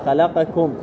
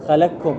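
First: The q and k sounds are pronounced separately. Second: The q sound is merged into the following k. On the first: The speaker calls it right. "احنا ماذا نقرأها؟" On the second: The speaker calls it wrong. "يقول بإدغام الكاف أو القاف في الكاف فيقرأ خلقكم"

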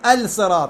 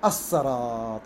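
First: The L sound is pronounced before the S. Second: The L merges into a doubled S. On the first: The speaker calls it wrong. "ما أقول الصراط" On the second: The speaker calls it right. "اللام بعد تدغم بالصاد"

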